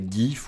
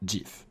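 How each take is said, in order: First: The word does not begin with a dj sound. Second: The word begins with a dj sound. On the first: The speaker calls it wrong. "On ne dit pas GIF" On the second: The speaker calls it right. "c'est GIF. / D J I F"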